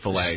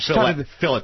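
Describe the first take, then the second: First: It is said the French-style way. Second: It is said the British, anglicized way. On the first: The French word is pronounced as intended. The speaker calls it right. "instead of fillet" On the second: The French word is deliberately mispronounced. The speaker calls it wrong. "the Brits deliberately mispronounce French words. They say fillet"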